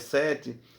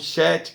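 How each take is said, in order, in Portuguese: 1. Começa com som de s, duas sílabas. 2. Começa com som de sh, uma sílaba. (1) "não é o sete no sentido ... do número sete" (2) "a pronúncia é Shet"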